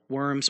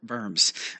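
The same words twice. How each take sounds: First: The name is said the everyday English way. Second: The name is said the local German way. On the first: The speaker calls it wrong. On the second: The speaker calls it right.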